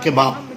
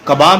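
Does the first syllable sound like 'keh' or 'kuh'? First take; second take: keh; kuh. First: The first vowel is an 'e' sound. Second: The first vowel is an 'a' sound. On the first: This is how people in European countries say it. The speaker calls it wrong. "European countries में normally इसे केबाब नाम से बोलते हैं" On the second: This is the proper form of the word. The speaker calls it right. "जबकि सही word कबाब है"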